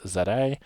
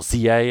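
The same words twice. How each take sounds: First: The letter Z is said as zed. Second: The letter Z is said as zee.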